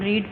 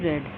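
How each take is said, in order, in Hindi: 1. स्वर एक लंबी 'ee' ध्वनि है। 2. स्वर एक छोटी 'eh' ध्वनि है। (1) "फर्स्ट फॉर्म को हम रीड पढ़ते हैं" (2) "सेकंड को रेड और थर्ड को भी रेड"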